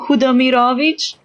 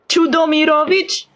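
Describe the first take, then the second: First: The name starts without a ch sound. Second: The name starts with a ch sound. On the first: The speaker calls it right. "he has the second name Hudomirovich" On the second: The speaker calls it wrong. "The voice actor pronounced it with ch at the start"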